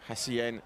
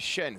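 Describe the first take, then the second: First: The name is said with two syllables. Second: The name is said with one syllable. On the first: The speaker calls it wrong. "I've been going Hassien" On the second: The speaker calls it right. "I now know it's Shen"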